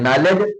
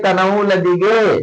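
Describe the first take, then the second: First: The word begins with no K sound. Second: The word begins with a sounded K. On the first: This is how the word is actually read. "पढ़ा जाती" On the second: This is how the word is spelled. "लिखा होते"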